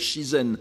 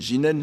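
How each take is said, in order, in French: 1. Le mot commence par un son 'sh'. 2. Le mot commence par un son 'j'. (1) "nature actuelle" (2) "qui est alors prononcé jinen"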